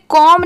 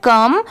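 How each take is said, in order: First: The vowel is an open 'o' as in 'com'. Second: The vowel is a short 'uh' as in 'cum'. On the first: The speaker calls it wrong. "इसे कॉम नहीं पढ़ेंगे" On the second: The speaker calls it right. "इसकी sound क्या आ रही है कम"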